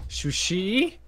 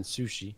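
First: "sushi" said as "shushi", high and rising; stressed mispronunciation. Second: Said in the usual way. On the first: Shown as a demonstration. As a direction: say "sushi" with SH at both starts, shoo-SHEE. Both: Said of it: "which is different than sushi".

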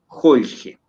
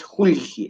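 First: "holge" with open O and E sounds; open vowels. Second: "julge" with closed U and I sounds; wrong close-vowel version. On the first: Teacher showing students the correct word, open-vowelled "holge". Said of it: "la pronunciación es relativamente abierta". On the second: Teacher showing students the too-closed way, mispronounced "julge". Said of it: "No es julge, es holge". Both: Shown as a demonstration.

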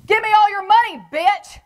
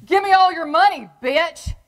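First: Very high, loud thug shout; louder robber's demand. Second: Loud, high thug bark; robber's demand. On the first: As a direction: yell it harder, like the punk lost patience. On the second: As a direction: shout it like a punk kid with a gun. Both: Retold or imitated. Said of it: "and says to me".

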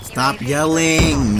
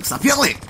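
First: Slow, drawn-out stern warning; slow stern order. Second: Snapped high command; sharp order. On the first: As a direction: drag out each word to scold. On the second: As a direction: cut him off sharply. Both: Real, not acted.

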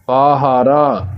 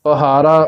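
First: ਪਾਹਾਰਾ with three long "aa" vowels. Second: ਪਹਾਰਾ with short first "a", "pahaara"; short first vowel. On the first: Teacher showing the correct reading, long-vowelled ਪਾਹਾਰਾ. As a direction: give all three syllables of ਪਾਹਾਰਾ full length. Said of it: "ਪਰ ਇਹਦਾ ਪਾਠ ਹੈ". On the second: Teacher showing the common misreading, quick short-vowelled ਪਹਾਰਾ. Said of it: "ਪਹਾਰਾ ਪਾਠ ਨਹੀਂ ਕਰਨਾ". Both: Shown as a demonstration.

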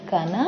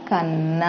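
First: Said in the usual way. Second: కన్న said with a long held double nn; ఒత్తు on న, కన్న with doubled nn held. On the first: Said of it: "వట్టిగా మొదటి పదంలో నా ఉంది". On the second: Shown as a demonstration. Teacher showing pupils the doubled letter, held nn. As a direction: press on the nn of కన్న. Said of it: "నా ఒత్తుంది".

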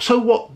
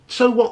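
First: SO punched high; scornful So what with a high "So"; stress on so. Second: SO punched high again; same scornful So what with a high "So"; stress on so. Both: Real, not acted. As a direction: hit "So" high and hard, then "what". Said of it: "repeated retort".

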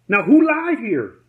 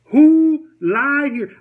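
First: Said in the usual way. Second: "Who lied here?" much higher and louder, slowed right down, hitting "who"; emphatic repeat. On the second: Shown as a demonstration. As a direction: drag it out slow and loud, leaning hard on "who".

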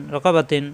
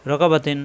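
No difference in how they are said.

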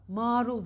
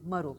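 First: Marul as "maarul"; wrong long vowel. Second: Marul with a short a; correct short vowel. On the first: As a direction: stretch the a of Marul. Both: Shown as a demonstration. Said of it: "Marul değil".

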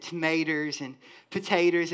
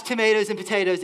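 First: Thick country Southern pronunciation of tomatoes and potatoes; Southern accent. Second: Said in the usual way. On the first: Shown as a demonstration. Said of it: "my Southern accent decides it wants to creep up". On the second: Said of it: "if you totally missed that".

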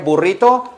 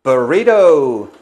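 First: "Burrito" with rolled rr and crisp t; Spanish "Burrito", pure u, higher; Spanish pronunciation. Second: "Burrito" American-style, ber-REE-doh; loud, stretched anglicized "Burrito"; English pronunciation. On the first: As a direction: say "Burrito" the Spanish way, questioning rise. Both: Shown as a demonstration. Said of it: "hay que pronunciarlo".

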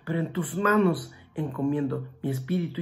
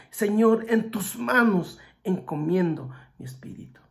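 First: Said in the usual way. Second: "Señor" shouted high and loud, the rest sinking away; loud cry. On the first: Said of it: "Y gritó". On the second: Retold or imitated. Jesus crying his last words to the Father, loud then fading. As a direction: call it out to heaven, then let it fade. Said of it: "lo dijo a gran voz".

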